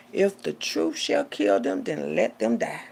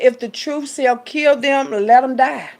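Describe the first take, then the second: First: Said in the usual way. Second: Loud, slow scripture proclamation; fervent sermon quote; preaching. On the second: Acted. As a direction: proclaim it from the pulpit. Quoting scripture loudly, slow.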